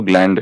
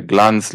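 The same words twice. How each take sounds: First: ग्लैंड said with a flat ae vowel and final d; correct reading. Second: ग्लांस said with a long open a, as misprinted; wrong reading. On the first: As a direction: correct it to ग्लैंड, like English gland. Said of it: "ग्लांस नहीं, वो ग्लैंड है". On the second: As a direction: read ग्लांस as written, the wrong way. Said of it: "ग्लांस नहीं". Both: Shown as a demonstration.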